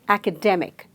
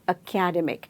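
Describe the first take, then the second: First: The stress is on the third syllable. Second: The stress is on the second syllable. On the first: The speaker calls it right. "there is a stress on the third syllable" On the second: The speaker calls it wrong. "second syllable"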